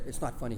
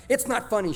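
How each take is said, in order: First: Much softer, lower, stifled with a held-in laugh; holding back laughter. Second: A sharp, higher, louder scold from mom; mock angry mom. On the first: Retold or imitated. Dad echoing mom while hiding his laughter: stifled and hushed. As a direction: say it through a hand while trying not to laugh. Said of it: "covered his mouth and shook his head". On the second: Mom scolding the boys: a mock angry snap. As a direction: snap it like a mother who is not amused. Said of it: "Mom was fast".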